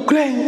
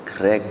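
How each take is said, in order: First: High-pitched imitated slam; sharp "greng" of a slammed door; hard door slam. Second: Low, soft "greng"; softly voiced sound of a closing door; gentle door closing. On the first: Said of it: "wataknya juga sekeras itu". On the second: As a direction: imitate a door eased shut quietly. Contrasting gently closed door. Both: Shown as a demonstration.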